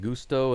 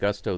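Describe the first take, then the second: First: The name is said with a Spanish vowel. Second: The name is said with an English vowel. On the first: "you're saying it's pronounced like Gusto" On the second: "the commentators have been calling him Gusto"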